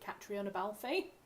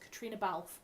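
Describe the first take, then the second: First: The first name is said as Catriona. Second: The first name is said as Katrina. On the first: The speaker calls it wrong. "I have been corrected a number of times because I pronounced it Catriona Balfe" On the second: The speaker calls it right. "Her name is Katrina Balfe, is how you pronounce it"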